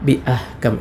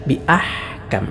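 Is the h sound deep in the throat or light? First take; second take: light; deep. First: The h is a light, breathy sound. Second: The h is a deep, tight throat sound. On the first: The speaker calls it wrong. "എന്നല്ല" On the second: The speaker calls it right. "ഹ ആണ്"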